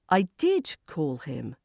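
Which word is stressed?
did. The stress falls on the word did. The call really happened. "emphasizing that you called"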